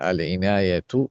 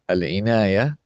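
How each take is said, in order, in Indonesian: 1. Kata ini berakhir dengan bunyi t. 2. Kata ini berakhir dengan bunyi h. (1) "ketika dibaca wasal, dia tetap dibaca tak" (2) "kalau kita wakaf, tak berubah menjadi ha"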